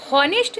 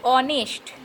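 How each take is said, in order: First: हॉनेस्ट with the H sounded at the start; हॉनेस्ट misread as spelt, starting "ho"; mistaken h pronunciation. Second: ऑनेस्ट begun on the vowel, no h sound; ऑनेस्ट opening straight on an "o" sound; silent-h pronunciation. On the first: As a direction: breathe a clear h into हॉनेस्ट. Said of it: "नहीं पढ़ते हैं". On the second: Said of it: "इसको हम लोग पढ़ते हैं". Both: Shown as a demonstration.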